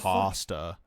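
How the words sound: Pasta is said the non-Canadian way.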